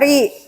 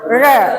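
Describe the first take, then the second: First: The syllable is said with an 'ee' vowel. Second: The syllable is said with an 'uh' vowel. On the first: The speaker calls it wrong. "tidak dibaca ri" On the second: The speaker calls it right. "tapi dibaca re"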